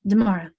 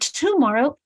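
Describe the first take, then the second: First: It begins with a softer d sound. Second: It begins with a clear t sound. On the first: "Is it a d sound?" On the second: "tomorrow t for everyone"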